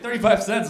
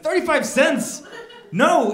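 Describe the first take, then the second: First: Said in the usual way. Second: Higher, louder, slowed disbelief; stunned echo of the cashier's price; incredulous. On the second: Retold or imitated. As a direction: repeat the price back in shock.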